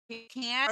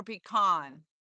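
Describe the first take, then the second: First: "pecan" with a short flat a, as in can; pee-CAN pronunciation. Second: "pecan" with a broad ah, pee-KAHN; pee-KAHN pronunciation. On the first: Asking Mike which way to say it, "pecan" as pee-CAN. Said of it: "is it pecan or pecan". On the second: Asking Mike which way to say it, "pecan" as pee-KAHN. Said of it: "'Cause I say pecan". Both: Shown as a demonstration.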